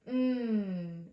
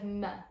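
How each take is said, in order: First: A held m hum with no vowel after. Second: A short m followed by an 'uh' vowel. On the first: The speaker calls it right. "We want to say mmm" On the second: The speaker calls it wrong. "instead of m ... you're adding something called a schwa onto the end"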